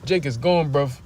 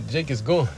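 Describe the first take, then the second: First: Said in the usual way. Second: Repeating the line through laughter; amused, giggling callback; laughing quote. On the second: Retold or imitated. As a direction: laugh while quoting the line. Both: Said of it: "What Elder Manata Zakba said".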